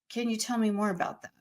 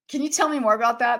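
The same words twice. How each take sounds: First: It is said with low, subdued energy. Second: It is said with high, lively energy.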